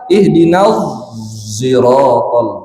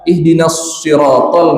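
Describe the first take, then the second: First: The word begins with a rounded z-like sound. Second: The word begins with a plain emphatic s sound. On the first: "ismam itu, mulutnya agak monyong. Tapi yang keluar suara zai" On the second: "shotnya biasa"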